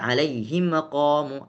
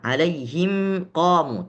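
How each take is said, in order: First: The m bounces, adding a short vowel after it. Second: The m is clear with no added vowel. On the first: The speaker calls it wrong. "itu bacaan yang keliru" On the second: The speaker calls it right. "Mim sukun dibaca jelas... Tawassut"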